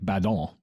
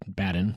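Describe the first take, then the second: First: The name is given a French pronunciation. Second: The name is given an American pronunciation. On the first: This is how it was likely said originally. "since he was French, it was probably like" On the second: This is how Americans say it today. "we're Americans, we pronounce it"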